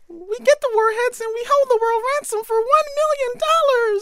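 It is said in a high Minnie Mouse voice.

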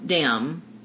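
The word begins with a d sound.

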